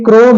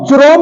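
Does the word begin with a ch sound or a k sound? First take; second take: k; ch. First: The word begins with a k sound. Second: The word begins with a ch sound. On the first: The speaker calls it right. "ये क्रोम है" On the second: The speaker calls it wrong. "चुरोम नहीं है"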